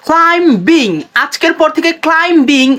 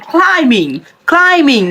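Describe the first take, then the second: First: ক্লাইম্বিং as "klaim-bing"; two beats, hard b, in ক্লাইম্বিং; wrong pronunciation. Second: ক্লাইম্বিং as "KLAI-ming"; correct pronunciation. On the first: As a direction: sound the b in ক্লাইম্বিং. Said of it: "উচ্চারণ করবেন না". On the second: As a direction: silent b in ক্লাইম্বিং. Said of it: "এটাকে উচ্চারণ করবেন". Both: Shown as a demonstration.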